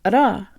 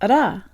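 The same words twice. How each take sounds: First: The stress is on the second syllable. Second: The stress is on the second syllable.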